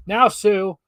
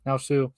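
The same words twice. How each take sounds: First: Now, Sue said much louder and higher. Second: Said in the usual way. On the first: Shown as a demonstration. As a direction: call out Now, Sue so the room hears. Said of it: "I said in a louder voice". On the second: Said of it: "oh, sorry".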